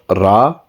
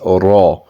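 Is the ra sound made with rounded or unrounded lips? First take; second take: unrounded; rounded. First: The ra is said with unrounded lips. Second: The ra is said with rounded lips. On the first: The speaker calls it wrong. "So it is not Ra" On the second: The speaker calls it right. "with a slightly round shaped mouth"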